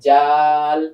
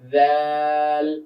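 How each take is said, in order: First: It begins with a 'j' sound. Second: It begins with a soft voiced 'th' sound. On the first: The speaker calls it wrong. "যদি আমি বাংলায় বলি তাহলে কি বলবো?" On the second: The speaker calls it right. "দাল জিহ্বার আগাটা এসে দাঁতের আগার সঙ্গে লাগবে উপরে"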